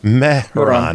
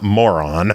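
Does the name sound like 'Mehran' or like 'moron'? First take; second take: Mehran; moron. First: The name is said like 'Mehran'. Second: The name is said like 'moron'. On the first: The speaker calls it right. "Mehran, not moron" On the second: The speaker calls it wrong. "not moron"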